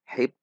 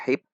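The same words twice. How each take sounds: First: The word ends with a stopped p sound. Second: The word ends with a stopped p sound.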